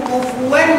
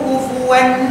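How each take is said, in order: No difference in how they are said.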